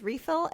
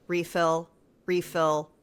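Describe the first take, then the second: First: "Refill" with a high rising end; questioning. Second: "Refill, refill" as low falling statements; statement, not question. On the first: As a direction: ask "Refill" as a question, pitched well up. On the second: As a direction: say each "Refill" as an order, ending down. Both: Retold or imitated. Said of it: "it's a question, not a statement".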